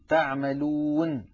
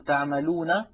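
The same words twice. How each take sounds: First: The final n ends with no vowel after it. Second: The final n is followed by a short vowel. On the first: The reader stops on this word. "فتسكن هذه النون عند الوقف" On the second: The reading continues on without stopping. "فبدلا من أن نقول تعملون"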